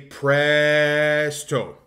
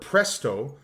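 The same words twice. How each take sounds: First: The first vowel is drawn out long. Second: The first vowel has normal length. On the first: "So I would lengthen the first vowel of the word" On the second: "instead of saying the word presto"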